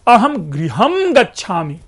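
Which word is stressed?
गृहम. The word गृहम carries the stress. I am going home, not to a cinema or park. "दूसरे इसी को stress डालिए"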